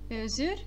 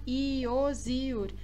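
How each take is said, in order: First: The word starts with a very quick i glide. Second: The word starts with a slow, full i sound. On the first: The speaker calls it right. "é um i bem rápido" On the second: The speaker calls it wrong. "assim é errado"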